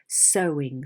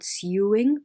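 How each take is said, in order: First: The first syllable does not rhyme with 'new'. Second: The first syllable rhymes with 'new'. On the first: The speaker calls it right. "but sewing" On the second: The speaker calls it wrong. "It's not sewing"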